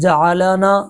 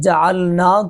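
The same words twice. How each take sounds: First: The l sound is followed by an a vowel. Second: The l sound is vowelless. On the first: The speaker calls it wrong. "हरकत ज़बर लाके उसको पढ़ना" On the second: The speaker calls it right. "लाम साकिन था"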